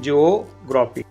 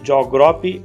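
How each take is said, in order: First: The opening has two syllables, 'jee-oh'. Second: The opening is squeezed into one syllable 'jo'. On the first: The speaker calls it right. "जॉग्राफी असं उच्चार न होता जिओग्राफी असं होईल" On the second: The speaker calls it wrong. "आपण याचा नेहमी उच्चार जॉग्राफी करतो"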